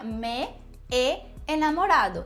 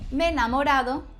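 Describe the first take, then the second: First: Both e vowels are pronounced one after another. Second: The two e vowels merge into one sound. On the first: "Quando na verdade seria me e enamorado" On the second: "se são vogais iguais, então uma delas desaparece"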